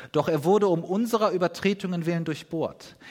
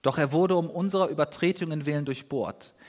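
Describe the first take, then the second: No difference in how they are said.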